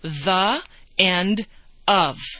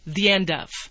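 First: The words are said separately without a glide. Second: A small y sound joins the and end. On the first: "That's what we would read" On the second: "But we say"

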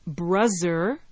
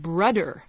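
First: The middle consonant is a Z sound. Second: The middle consonant is a D sound. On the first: "with a Z sound" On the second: "with a D there in the middle"

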